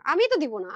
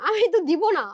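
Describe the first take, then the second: First: Said in the usual way. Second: Louder and higher, pressing the point home; emphatic louder repeat. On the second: Real, not acted. Firm louder refusal. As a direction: seller insisting to viewers, firmly louder.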